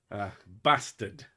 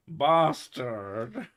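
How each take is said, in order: First: Said in the usual way. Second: Mock Cockney bastard. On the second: Shown as a demonstration.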